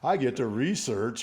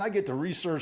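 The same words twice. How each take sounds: First: It is said in a sarcastic, ironic tone. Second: It is said in a sincere, upbeat tone. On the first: The task is an unwelcome burden. The speaker calls it wrong. "the irony in my, my tone" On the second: The task is a welcome chance to learn. The speaker calls it right. "say those same words with a different tone in my voice"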